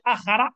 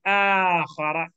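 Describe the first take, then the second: First: The alif vowel is said short. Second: The alif vowel is stretched long. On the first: The speaker calls it wrong. "You say akhara, you ignore the alif" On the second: The speaker calls it right. "Only add kho and ra, say akhara"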